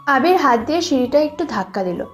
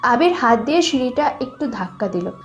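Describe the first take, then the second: No difference in how they are said.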